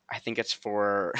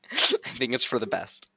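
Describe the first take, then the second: First: Said in the usual way. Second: Said through a real laugh. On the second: Real, not acted. Streamer to chat, laughing through the answer. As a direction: laugh your way through the line.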